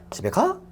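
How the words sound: The pitch rises at the end like asking. The speaker asks whether someone goes home. "이거는 의문"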